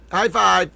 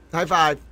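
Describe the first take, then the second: No difference in how they are said.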